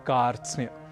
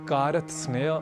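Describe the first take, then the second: First: The consonants are joined without any vowel. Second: Extra vowels break up the consonant cluster. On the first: The speaker calls it right. "हमें कहना है कार्त्स्न्य" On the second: The speaker calls it wrong. "आदि न कहकर"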